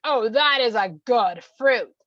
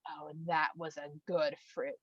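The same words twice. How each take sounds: First: Loud, slow, drawn-out approval; emphatic relish. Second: Low, slow, soft relish; hushed savouring. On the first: Husband has just bitten the fruit, loudly relishing. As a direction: boom it out, stretching every word. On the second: Woman has just bitten the fruit, quietly savouring. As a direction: murmur it slowly with quiet pleasure. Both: Acted.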